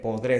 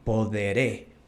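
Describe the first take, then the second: First: The word is said quickly, in rapid repetition. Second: The word is said at an ordinary, careful pace.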